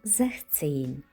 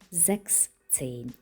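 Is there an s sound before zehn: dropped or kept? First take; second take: dropped; kept. First: It is said without the s sound before zehn. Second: It is said with the s sound before zehn. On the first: The speaker calls it right. "16 ми скажемо" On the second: The speaker calls it wrong. "замість"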